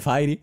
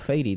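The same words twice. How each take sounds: First: The brand name is said with Spanish sounds. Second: The brand name is said with English sounds. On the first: This is how most people say it. "todo el mundo dice Fairy" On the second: It shows off a careful pronunciation. "en un alarde de mmm, super pronunciación siempre digo Fairy"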